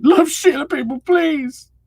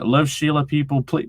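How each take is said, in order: First: Much higher and louder, laughing through it; high laughing repeat. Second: Said in the usual way. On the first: Shown as a demonstration. Streamer echoing chat's plea for Sheila, laughing high and loud. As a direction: repeat it squealing with laughter, stretching please slowly. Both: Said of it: "reads it again".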